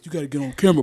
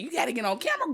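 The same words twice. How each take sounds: First: The voice is pitched deliberately deeper. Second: The voice is at normal pitch and sounds aggressive. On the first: "let me deepen my voice" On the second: "That's aggressive"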